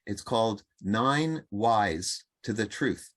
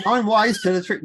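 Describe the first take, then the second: First: Said in the usual way. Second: High, loud Australian accent. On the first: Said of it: "sounds a lot funnier if you're doing an Australian accent". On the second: Shown as a demonstration. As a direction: say it like an Aussie. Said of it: "if you're doing an Australian accent".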